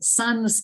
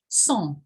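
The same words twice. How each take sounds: First: The word is said with English sounds. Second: The word is said with French sounds. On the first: "they pronounced it in an English way" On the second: "the word that comes from French"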